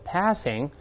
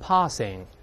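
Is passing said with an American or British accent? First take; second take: American; British. First: It is said with an American accent. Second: It is said with a British accent. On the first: "美国人把r 变成a 叫passing" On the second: "如果英国人读成passing"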